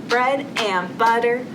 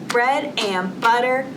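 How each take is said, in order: No difference in how they are said.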